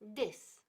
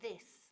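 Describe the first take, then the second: First: The first sound is a hard D. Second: The first sound is a soft TH. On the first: The speaker calls it wrong. "como si fuera una D" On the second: The speaker calls it right. "porque no es D, es T H"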